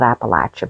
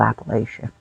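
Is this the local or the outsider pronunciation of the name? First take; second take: local; outsider. First: Said the way locals in the region say it. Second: Said the way people from elsewhere say it. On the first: This is how people from the region say it. "We call it Appalachia" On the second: This is how people from elsewhere say it. "y'all probably call it Appalachia"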